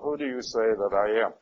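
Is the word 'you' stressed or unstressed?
unstressed. The word 'you' gets no special stress.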